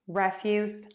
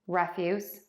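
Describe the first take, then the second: The two takes are said the same way.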